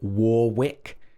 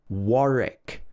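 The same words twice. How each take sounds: First: The middle W sound is pronounced. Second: The middle W sound is silent. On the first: The speaker calls it wrong. "We don't say Warwick" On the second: The speaker calls it right. "silent W's... It should be Warwick"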